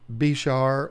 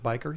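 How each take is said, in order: First: It sounds like bishar, with a sh sound. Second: It sounds like biker, with a k sound. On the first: "You might say Bishar" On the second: "I pronounce it biker"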